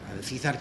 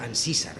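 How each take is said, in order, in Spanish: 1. El sonido de la c es más fuerte, al estilo castellano. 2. El sonido de la c es más suave, al estilo colombiano. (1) "pronunciado en castellano" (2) "en Colombia se diría Ancísar, con una C un poquito más suave"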